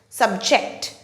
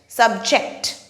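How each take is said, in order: First: The stress is on the second syllable. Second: The stress is on the second syllable.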